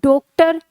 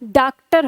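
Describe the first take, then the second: First: The first vowel is a long 'o' sound. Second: The first vowel is a long 'aa' sound. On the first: "फिर हमने ओ लगा के देखा" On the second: "हमने इसको ऐसे लिखा हिंदी में, तो इसका उच्चारण क्या हो गया"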